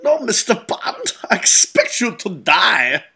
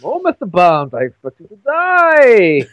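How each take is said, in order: First: Mock villain line, pitched up on no; lightly voiced Bond villain; villain line quoted. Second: Slow mock German accent, louder on die; hammed-up vaguely German Bond villain. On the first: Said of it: "that line". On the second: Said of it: "he never had a Scottish accent. He had a vaguely German accent".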